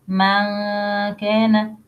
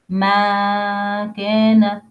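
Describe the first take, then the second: The two takes are said the same way.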